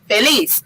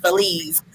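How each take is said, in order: First: The name ends with a hissing s sound. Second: The name ends with a buzzing z sound. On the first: The speaker calls it right. "the Z is pronounced like a S" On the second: The speaker calls it wrong. "not Feliz"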